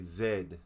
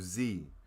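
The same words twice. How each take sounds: First: The letter is said the British way, zed. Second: The letter is said the American way, zee.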